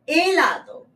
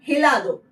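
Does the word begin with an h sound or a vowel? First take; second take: vowel; h sound. First: The word begins directly with a vowel. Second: The word begins with an audible h sound. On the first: The speaker calls it right. "H का जो प्रोनाउंसिएशन है हमेशा साइलेंट होता है" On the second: The speaker calls it wrong. "It is not हेलादो"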